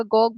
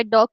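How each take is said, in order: First: गॉग with G replacing the D of dog; child's assimilation error. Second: Said in the usual way. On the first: Retold or imitated. Lecturer shows a child's assimilation, गॉग with G for D. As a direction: say dog as गॉग, G at both ends. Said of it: "डॉग की जगह गॉग बोल रहा है". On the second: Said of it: "डॉग की जगह गॉग".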